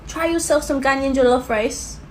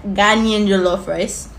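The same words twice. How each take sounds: First: Said in the usual way. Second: "Ghanaian" stressed, slow, rising end; slow, lean on "Ghanaian", lift at the end; emphasis on Ghanaian. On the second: Shown as a demonstration. Vlogger stressing Ghanaian to viewers, slow emphatic. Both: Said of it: "we gotta put the emphasis on that".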